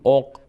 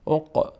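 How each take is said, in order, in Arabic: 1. القاف الأخيرة تُوقف دون أي ارتداد. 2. القاف الأخيرة فيها ارتداد خفيف وصدى. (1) "نمیگیم عق" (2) "اینجا قلقله میشه"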